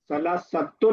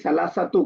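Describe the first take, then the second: First: The word ends with an added n sound. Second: The word ends on a vowel without n. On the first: The speaker calls it wrong. "सलासतुन नहीं" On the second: The speaker calls it right. "उसका तनवीन नहीं रहेगा"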